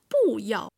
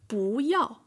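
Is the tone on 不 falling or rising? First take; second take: falling; rising. First: 不 is said with a falling fourth tone. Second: 不 is said with a rising second tone. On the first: The speaker calls it wrong. "Not 不要" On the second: The speaker calls it right. "But 不要"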